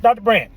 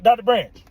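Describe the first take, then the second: First: A pointed, loud "Doctor Branch"; a stern, knowing call of the name. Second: A pointed, loud "Doctor Branch" again; a knowing call of the name. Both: Retold or imitated. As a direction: say the name like a warning look. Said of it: "she gave me a look".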